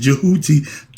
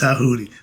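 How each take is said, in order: First: The name starts with a J sound. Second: The name starts with a T sound. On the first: The speaker calls it wrong. "whatever they put the D, the, like the Django" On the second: The speaker calls it right. "No, the D is silent"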